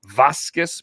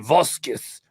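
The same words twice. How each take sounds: First: It is said in a plain English accent. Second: It is said in a put-on French accent. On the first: "probably butchered that" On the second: "that's how I think I would talk if I was French"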